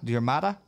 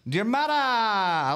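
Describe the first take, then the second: First: Said in the usual way. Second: Diarmada high and drawn out with a Hispanic lilt; Hispanic-sounding flourish. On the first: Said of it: "you make it sound Hispanic". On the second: Shown as a demonstration. Host trying out a viewer's name, Hispanic-sounding flourish. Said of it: "you make it sound Hispanic instead of Irish".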